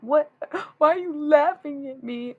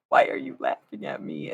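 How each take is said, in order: First: High, loud gasping what; shocked self-quote. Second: Breathy, voiceless grumble; annoyed self-quote. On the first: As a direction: gasp then squeal it out in shock. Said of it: "they'll giggle at me and I'm like". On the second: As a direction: hiss it out, offended. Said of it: "in one second, I'm like". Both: Retold or imitated.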